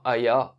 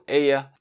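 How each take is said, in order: First: The name is said with a French pronunciation. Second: The name is said with a Finnish pronunciation. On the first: "en bon français" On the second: "ça se prononce comme ça en finlandais"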